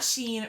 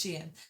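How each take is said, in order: First: It is one syllable rhyming with 'seen'. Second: It is two syllables, 'she' then 'in'. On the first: The speaker calls it wrong. "It is not Sheen or Shine" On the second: The speaker calls it right. "two syllables, where the first part rhymes with C and the p- second part of the word is in"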